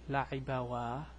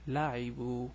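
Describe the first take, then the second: First: The word ends with an extra 'wa' sound. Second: The word ends on a plain 'u' sound. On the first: The speaker calls it wrong. "so it's not akalawa or la'ibawa" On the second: The speaker calls it right. "No, it's akalu, la'ibu"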